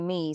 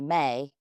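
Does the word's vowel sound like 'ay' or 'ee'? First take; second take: ee; ay. First: The vowel is a plain 'ee' sound. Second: The vowel is an 'ay' sound. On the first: The speaker calls it wrong. "Don't say me" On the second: The speaker calls it right. "say May"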